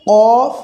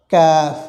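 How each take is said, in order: First: কফ as a heavy "qoof", loud and higher; কফ thick, long and rising; contrasted heavy letter. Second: কাফ as a thin "kaaf" with open "aa"; কাফ held, thin and easing down; contrasted light letter. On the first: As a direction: say কফ from the tongue root with a rounded held vowel. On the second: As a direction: say কাফ with a lighter, more forward k. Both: Shown as a demonstration. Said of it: "দুটো একসঙ্গে বলার উদ্দেশ্য".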